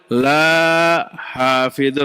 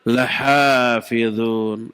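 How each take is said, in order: First: The first vowel is drawn out long. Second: The first vowel is short. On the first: They will not guard it. The speaker calls it wrong. "Jadi begitu kalau dibacanya panjang" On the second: They will surely guard it. The speaker calls it right. "lahnya dibaca pendek, tidak boleh panjang"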